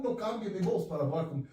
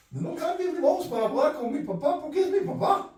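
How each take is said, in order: First: Said in the usual way. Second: Higher and louder, hammered home; rising preacher emphasis; emphatic repeat. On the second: Real, not acted. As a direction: punch the repeat hard from the pulpit.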